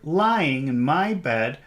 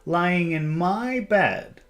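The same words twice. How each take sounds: First: The word lying carries the stress. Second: The word my carries the stress. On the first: "lying, that's an emphasized word" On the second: "I think we should emphasize my"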